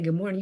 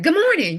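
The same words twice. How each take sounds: First: It is said at a normal, calm volume. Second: It is said loudly, with a raised voice.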